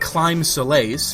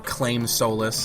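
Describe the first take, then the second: First: The first word sounds like climb. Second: The first word sounds like claim. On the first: "Not Climb Solace, which is what it looks like" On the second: "That's what I've heard a lot of people calling it"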